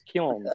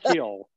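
First: The final N sound is pronounced. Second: The final N sound is dropped. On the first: The speaker calls it right. "you pronounce the N if you can" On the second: The speaker calls it wrong. "it's not kill"

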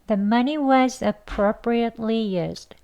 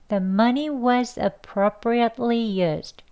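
The two takes are said the same way.

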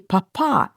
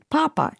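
First: It is said the way Downton Abbey characters say it. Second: It is said in a plain, ordinary way.

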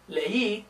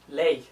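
First: The vowels are split into two syllables. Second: The vowels merge into one syllable. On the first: "leí is two syllables" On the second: "if I didn't have that accent mark, it'd be ley"

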